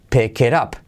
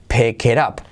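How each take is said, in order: The two takes are said the same way.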